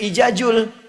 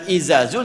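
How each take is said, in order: First: The consonants are pronounced with a j sound. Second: The consonants are pronounced with a z sound. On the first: The speaker calls it wrong. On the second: The speaker calls it right.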